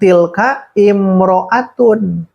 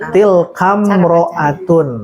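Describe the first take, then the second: First: The 'i' vowel before 'mro'atun' is pronounced separately. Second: The 'i' vowel is dropped and the words join. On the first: The speaker calls it wrong. "bukan tilka imro'atun" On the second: The speaker calls it right. "sudah masuk ke diwasol tilkamro'atun"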